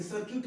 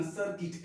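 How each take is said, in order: First: सर्किट with "yoot" at the end, sar-KYOOT; wrong pronunciation. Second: सर्किट with a short "i", SAR-kit; corrected pronunciation. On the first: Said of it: "इसे सर्किट मत बोलना". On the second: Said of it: "सर्किट मत बोलना". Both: Shown as a demonstration.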